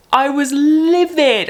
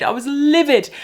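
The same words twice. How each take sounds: First: Slow, raised and higher, seething; livid. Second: Higher and raised, a touch less; livid. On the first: Telling viewers about the Instagram ban, slow and seething. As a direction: lean on livid like you're still furious. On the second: Repeating the complaint about Instagram, still fuming. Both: Real, not acted.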